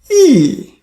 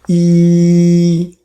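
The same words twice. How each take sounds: First: The pitch falls sharply from high to low. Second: The pitch stays high and level. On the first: "Fourth tone, E, E. You see the tone from top to bottom" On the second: "First tone, E flat"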